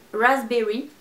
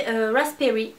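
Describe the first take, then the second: First: "Raspberry" retried as a self-mocking English raz-berry; clumsy English accent. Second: Said in the usual way. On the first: Shown as a demonstration. Vlogger retries the shade name in bad English accent. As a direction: have a go at the English "Raspberry", knowing it won't sound right. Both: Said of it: "Accent anglais de merde".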